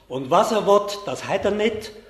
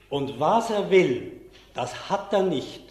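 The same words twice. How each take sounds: First: It is spoken in Swiss German dialect. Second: It is spoken in Standard German. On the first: "Ich sage es mal auf Schweizerdeutsch" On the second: "Jetzt auf Hochdeutsch"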